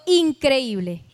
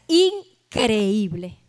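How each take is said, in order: First: Said in the usual way. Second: "increíble" drawn out very slowly, split after the first syllable; slow, emphatic "increíble", broken after "in"; stress on increíble. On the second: Shown as a demonstration. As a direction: stretch "increíble" as two parts, in... creíble. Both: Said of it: "Como lo dice la misma frase".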